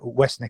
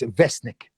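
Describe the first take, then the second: First: The name begins with a soft W sound. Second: The name begins with a V sound. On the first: The speaker calls it wrong. "I'd have got that wrong. I'd have said uh, Westnik" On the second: The speaker calls it right. "so it's Vesnik"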